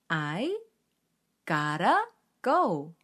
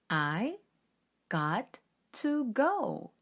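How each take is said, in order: First: The words are linked smoothly as 'gotta'. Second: The words are said separately in choppy chunks. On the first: The speaker calls it right. "gotta 라고 발음을 하는 경우가 훨씬 많습니다" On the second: The speaker calls it wrong. "뚝뚝 끊어 읽으니 어딘가 어색하죠?"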